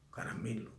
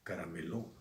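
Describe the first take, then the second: First: The stress falls on the second-to-last syllable. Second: The stress falls on the last syllable. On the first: The speaker calls it right. "se dice caramelo" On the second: The speaker calls it wrong. "no se dice carameló"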